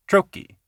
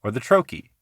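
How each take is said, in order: First: "trochee" jumped high on TRO, light "chee"; "trochee" said high and sharp on the first syllable; trochee stressed. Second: Said in the usual way. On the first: Shown as a demonstration.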